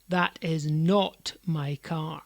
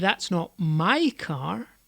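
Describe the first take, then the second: First: The stress is on "not". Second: The stress is on "my".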